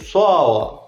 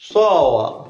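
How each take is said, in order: Both takes have the same delivery.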